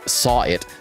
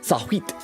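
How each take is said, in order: First: The name ends sounding like 'saw it'. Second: The name ends sounding like 'wheat'. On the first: The name plainly reveals the pun. "He saw it" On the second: The pun in the name is partly disguised. "I like to say Sahwheat. Because it's with a W"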